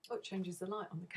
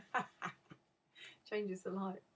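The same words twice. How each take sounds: First: Said in the usual way. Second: Laughing. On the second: Real, not acted. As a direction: break into a real laugh as you restart. Laughs restarting the sentence.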